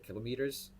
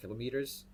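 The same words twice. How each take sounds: First: It is said in a New Zealand accent. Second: The same.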